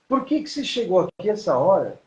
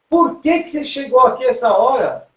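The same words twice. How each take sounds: First: The line is delivered in a restrained, contained way. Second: The line is delivered in a bigger, more expansive way. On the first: It suits close framing on a small screen. "a gente tem que ter uma atuação contida" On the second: It suits wider framing on a large screen. "eu posso manter uma cena é, maior"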